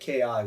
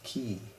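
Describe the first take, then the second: First: It is spelled out as two letter names. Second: It is said as a single syllable. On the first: The speaker calls it wrong. "pronounce it K I, which is incorrect" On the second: The speaker calls it right. "It's Kitai. Ki"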